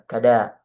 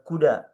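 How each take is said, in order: First: The first vowel is an 'a' sound. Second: The first vowel is a 'u' sound. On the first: "Kaf, fathah, dan fathah dengan dipanjangkan" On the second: "Kadang dibaca juga dengan kuda, ya, dengan uh, harokat dhammah"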